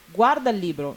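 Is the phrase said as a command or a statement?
command. The phrase has a commanding intonation. It tells someone to look at the book.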